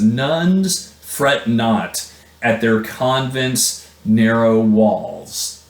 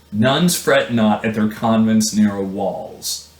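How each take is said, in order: First: Slow poetic reading. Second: Said in the usual way. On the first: Shown as a demonstration. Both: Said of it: "He says".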